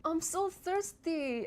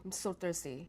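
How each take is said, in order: First: High, drawn-out excited exclamation; exaggerated high-pitched excitement. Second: Low, soft, unexcited statement; quiet, low-pitched delivery. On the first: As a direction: pitch it way up and stretch it slowly. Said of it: "just the way I deliver it". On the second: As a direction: say it low and small. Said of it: "you can do it with just pitch". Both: Shown as a demonstration.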